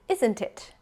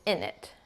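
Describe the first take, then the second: First: All sounds of 'isn't it' are said in full. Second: It is reduced to a short 'innit'. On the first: The speaker sounds posh. "maybe that's the more posh pronunciation" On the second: The speaker sounds northern and casual. "up here in the north, it's in it"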